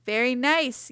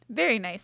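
First: Louder storybook yell; raised-voice repeat for a listener who missed it; mild yell. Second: Said in the usual way. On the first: A narrator's reading. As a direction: yell it so Badger can hear. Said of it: "yelled Rabbit". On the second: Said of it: "said Rabbit".

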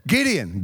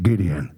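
First: Said in the usual way. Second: Very deep drawn-out call; God calling. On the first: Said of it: "first call". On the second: Acted. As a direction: boom the name down from heaven.

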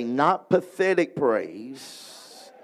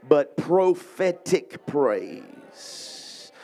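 First: "pathetic" drawn out slowly as the wrong word; contrast pathetic. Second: "prophetic" drawn out very slowly and leaned on; stress prophetic. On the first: Preacher having the crowd contrast the words, slow and heavy. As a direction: say "pathetic" slow and heavy, setting it against "prophetic". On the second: Preacher teaching the crowd the key phrase, slow emphasis. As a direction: land hard and slow on "prophetic" as the right word. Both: Shown as a demonstration. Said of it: "Look at your neighbor and say".

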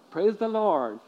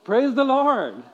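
First: Said in the usual way. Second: Higher, louder call to the congregation; rousing call. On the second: Shown as a demonstration. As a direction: lift the room with it. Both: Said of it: "Can you say that?".

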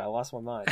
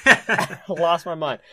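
First: Said in the usual way. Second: Laughing through the words, slower. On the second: Real, not acted. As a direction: laugh it out, drawn out. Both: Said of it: "repeated with laugh".

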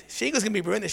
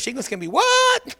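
First: Said in the usual way. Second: Much higher, squawked question; a lighter hint of the shouting lady; half-hearted commercial yell; mock ad shout. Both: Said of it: "what's that commercial".

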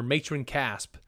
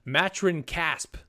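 First: "Matron" with a long a as in may; corrected reading. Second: "Matron" said slowly with a short a as in mat; first reading of the name. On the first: Host corrects himself, saying "Matron" with a long may-vowel. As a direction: say "Matron Casp" with MAY-tron. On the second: Host tries the name, saying "Matron" slowly with a mat-vowel. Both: Shown as a demonstration. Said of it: "or Matron Casp".

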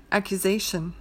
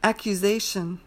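First: "accusation" with a relaxed, reduced u, ACK-yuh-zay-shun; lazy "accusation". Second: "Accusation" with a clear rounded oo, ACK-yoo-zay-shun; full "Accusation". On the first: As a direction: let the u go lax in "accusation". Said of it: "lazier with the vowel". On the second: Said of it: "a stronger U sound". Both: Shown as a demonstration.

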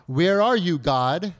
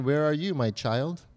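First: Louder, searching question to God; calling out to God. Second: God wondering. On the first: Believer wondering where God is, calling out. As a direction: call out for God, pushing the first words. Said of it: "God might be wondering, "Where are you, my child?". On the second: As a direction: gently turn the question back, lightly voicing God. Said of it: "God might be wondering". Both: Acted.

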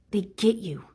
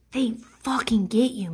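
First: "They get you" whispered, unvoiced and falling; whispered repeat. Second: Said in the usual way. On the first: Shown as a demonstration. Echoing her own point to viewers, whispered. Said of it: "repeat of line 51 in a whisper". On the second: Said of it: "said then repeated as a whisper".

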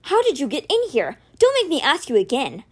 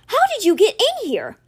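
First: Controlled, threatening demand; raised but restrained questioning; stern warning. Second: High, loud, outraged demand; shocked, furious questioning; explosive outburst. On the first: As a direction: warn him firmly, holding the anger in. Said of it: "Alex warned". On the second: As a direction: explode at the intruder. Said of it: "Alex exploded". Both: A narrator's reading.

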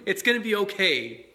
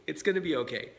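First: A laugh, then a bright it's gonna be okay; laughing reassurance. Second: Said in the usual way. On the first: Real, not acted. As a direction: laugh it off while reassuring them. Reassuring parents, laughs first.

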